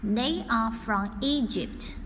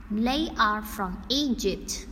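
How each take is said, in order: Both takes have the same delivery.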